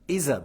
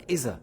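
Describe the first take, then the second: First: The middle consonant is a z-like sound. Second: The middle consonant is a z-like sound.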